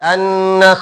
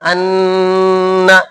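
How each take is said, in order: First: The nasal sound is held only briefly. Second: The nasal sound is stretched out very long. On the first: The speaker calls it right. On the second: The speaker calls it wrong.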